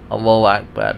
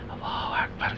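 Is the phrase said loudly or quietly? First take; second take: loudly; quietly. First: It is said loudly, in a raised voice. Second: It is said quietly, in a low voice. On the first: Everyone in the congregation is meant to hear it. The speaker calls it right. "Baca keras seperti itu" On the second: Only the one saying it is meant to hear it. The speaker calls it wrong. "Kalau untuk dirinya sendiri"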